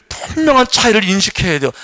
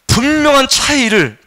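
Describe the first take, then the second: First: Said in the usual way. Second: 분명한 stretched slow and raised; slow, high stressed 분명한; slow emphasis. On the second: Acted. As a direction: lean on 분명한 slowly.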